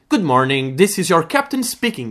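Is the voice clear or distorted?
clear. The voice is clear and easy to understand.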